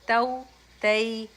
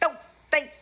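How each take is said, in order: First: The syllables are said softly and gently. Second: The syllables are said with a strong jolt. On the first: The speaker calls it right. "इनको नरमी से अदा किया जाता है" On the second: The speaker calls it wrong. "बहुत ज्यादा लगे तऊ तई ऐसे नहीं"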